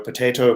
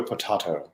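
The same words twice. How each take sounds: First: "potato" as po-TAY-to; long A in "potato"; American long-A pronunciation. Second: "potato" as po-TAH-to; broad "ah" in the middle of "potato"; broad-A pronunciation. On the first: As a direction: middle of "potato" rhymes with "day". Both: Shown as a demonstration. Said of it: "It's like".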